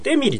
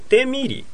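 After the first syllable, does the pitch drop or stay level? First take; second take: drops; level. First: The pitch falls after the first syllable. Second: The pitch stays level across the syllables. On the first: This is the Japanese way of saying it. The speaker calls it wrong. "日本人はもう完全にデミリとか言ってるからね" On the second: This is the Korean way of saying it. The speaker calls it right. "同じ音で続かなきゃだ"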